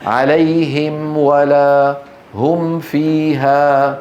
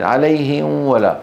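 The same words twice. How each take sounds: First: عليهم ولا هم فيها slowly, each م fully closed and distinct; correct clear mim. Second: عليهم ولا slowly, the م swallowed into a nasal w; never close the lips on the م of عليهم before ولا; incorrect hidden mim. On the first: Teacher shows what must be said, عليهم and هم with clear mim. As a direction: sound the م of عليهم and هم clearly before و and ف. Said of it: "ماذا يجب أن يقول؟". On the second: Teacher shows what is not valid, عليهم with blurred mim. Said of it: "لا يصح". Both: Shown as a demonstration.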